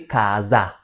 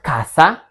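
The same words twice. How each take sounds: First: The middle consonant is a buzzed z sound. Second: The middle consonant is a hissed s sound. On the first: The speaker calls it right. "So letter S is pronounced like Z between two vowels" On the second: The speaker calls it wrong. "Not casa"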